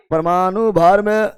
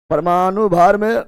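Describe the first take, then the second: No difference in how they are said.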